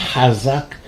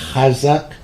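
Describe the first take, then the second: First: It begins with a rough throaty 'h' sound. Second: The same.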